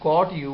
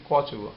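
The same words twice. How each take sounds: First: The t is said separately before you. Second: The t is blended with the following you. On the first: "instead of saying caught you" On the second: "we say caught you"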